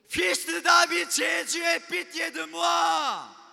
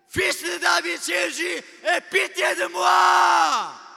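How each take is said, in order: First: The cry is said at a lower volume. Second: The cry is said at a higher volume.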